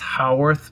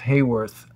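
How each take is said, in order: First: The name begins with a 'how' sound. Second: The name begins with a 'hay' sound. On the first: It is the family's original pronunciation. "Respectfully to my parents and everyone, it's Howarth" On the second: It is the local Hollywood pronunciation. "we say Hollywood here, it's Hayworth"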